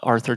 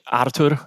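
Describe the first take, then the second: First: The name is said with its English pronunciation. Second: The name is said with its Polish pronunciation. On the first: This form is easier for others. "Arthur just makes it easier for everyone" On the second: This is the name's original form. "It's originally Artur. I'm originally from Poland"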